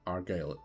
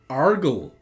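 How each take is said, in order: First: The name ends with a long 'guile' sound. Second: The name ends with a short 'gull' sound. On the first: The speaker calls it right. "he's clearly called Argyle? Argyle, exactly" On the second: The speaker calls it wrong. "I would attempt to pronounce this name as Argle"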